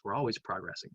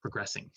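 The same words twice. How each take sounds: First: "progressing" with the stress on the wrong syllable; misplaced stress. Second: "Progressing" repeated with the stress set right, on the second syllable; corrected stress. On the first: Teacher misstresses "progressing" while talking about Gen Z, awkward stress. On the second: Teacher corrects her own stress on "Progressing", careful repeat. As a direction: say "Progressing" again, fixing the stress. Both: Shown as a demonstration. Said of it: "I put the emphasis on the wrong syllable".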